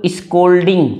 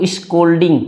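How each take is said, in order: First: स्कोल्डिंग said clearly as s-kol-ding with a hard k; model pronunciation. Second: Said in the usual way. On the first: Shown as a demonstration. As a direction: say स्कोल्डिंग crisply, hard k after s. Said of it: "फिर से repeat करो". (स्कोल्डिंग साफ़ उच्चारण, स के बाद कड़ा क) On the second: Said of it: "देखो स्कोल्डिंग".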